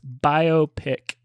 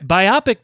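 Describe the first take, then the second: First: It is said as 'bio' followed by 'pic'. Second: It sounds like 'biopsy' with an added ending. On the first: The speaker calls it right. "Two separate words" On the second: The speaker calls it wrong. "Biopic doesn't sound right. It sounds like uh, a piece of skin you biopsied"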